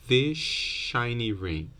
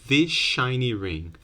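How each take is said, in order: First: 'This' ends with an sh sound. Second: 'This' ends with an sh sound.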